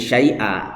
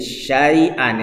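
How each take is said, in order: First: The word ends on a vowel without n. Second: The word ends with an n sound. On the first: The reading stops at this word. "dibaca wakof kan menjadi syai'a" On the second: The reading continues into the next word. "kalau diwasolkan maka ini ada nunnya"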